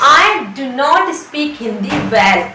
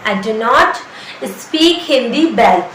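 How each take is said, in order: First: Very slow, stretched out; slow teaching demo. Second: Very slow, drawn out; slow teaching demo. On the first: Teacher repeating the sentence slowly for students. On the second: Teacher drilling the sentence very slowly. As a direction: say it slower still for learners. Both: Shown as a demonstration. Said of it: "मैं अच्छी तरीके से".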